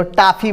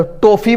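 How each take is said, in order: First: "टॉफ़ी" said as taafi; wrong aa vowel. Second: "टॉफ़ी" said as tofi, rounded o; wrong o vowel. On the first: Teacher ruling out a form, "टॉफ़ी" as taafi. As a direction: open the first vowel of "टॉफ़ी" to pure aa. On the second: Teacher ruling out a form, "टॉफ़ी" as tofi. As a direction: close the first vowel of "टॉफ़ी" to long o. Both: Shown as a demonstration. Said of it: "बोलते हैं उसके बीच वाला".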